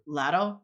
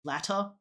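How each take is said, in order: First: LADDER, middle consonant tapped as D; T's as D's. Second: LATTER with a clear T in the middle; LATTER, middle consonant unvoiced T, not D; T instead of D. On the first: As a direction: say LADDER as the D version of "latter". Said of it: "two T's in the middle as D's". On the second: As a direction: say LATTER with the double T kept as T. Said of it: "instead of". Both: Shown as a demonstration.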